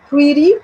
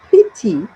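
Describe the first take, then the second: First: It is said in an American accent. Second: It is said in a British accent.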